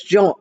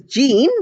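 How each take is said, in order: First: The name is said with a French pronunciation. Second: The name is said with an English pronunciation. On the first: "in France, it is pronounced as Jean" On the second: "In English, we might pronounce it as Jean"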